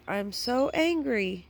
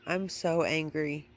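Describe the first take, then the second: First: Higher, slower, exasperated; real exasperation; frustrated. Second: Said in the usual way. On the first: Real, not acted. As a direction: lean into "angry" with a falling groan of frustration.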